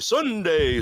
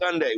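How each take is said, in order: First: It is said in a showy radio announcer voice. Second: It is said in a plain everyday speaking voice.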